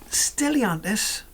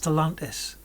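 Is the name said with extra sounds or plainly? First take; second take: extra sounds; plain. First: The name is said with extra sounds added. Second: The name is said without any extra sounds. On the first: The speaker calls it wrong. "I said that wrong, didn't I? ... I don't know why I added extra letters" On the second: The speaker calls it right. "It's Stellantis"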